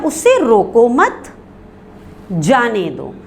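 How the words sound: There is a pause right after 'mat'. Do not stop the person; let them go. "हमने सक्ते के निशान को आगे बढ़ा दिया"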